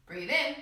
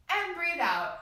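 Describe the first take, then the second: First: Slow calm cue to inhale; guided breathing cue. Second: Slow release on out; guided breathing cue. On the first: Teacher leading children in deep breaths, slow and calm. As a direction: draw the breath in as you say it. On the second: Teacher leading children in deep breaths, slow exhale. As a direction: let the words ride the exhale. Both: Shown as a demonstration. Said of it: "Let's take three big deep breaths".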